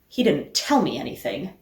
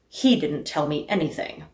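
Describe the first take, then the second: First: The word "tell" carries the main stress. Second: The word "he" carries the main stress. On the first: He did something other than telling. "That he didn't tell me anything, but maybe he did something else?" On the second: Someone else told me instead. "Is the point that he didn't tell me anything, but somebody else did?"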